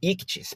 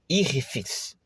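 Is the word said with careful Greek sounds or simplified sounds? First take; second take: simplified; careful. First: It is said with simpler, easier sounds. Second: It is said with fuller, more careful Greek sounds. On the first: "para ficar mais fácil" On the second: "para eu caprichar um pouco mais na pronúncia correta"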